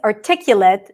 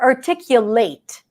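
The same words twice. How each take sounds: First: The ending is said the adjective way. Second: The ending is said the verb way. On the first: It describes someone who speaks clearly. "someone who is articulate" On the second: It is the action of expressing clearly. "which is the verb. The ending is different"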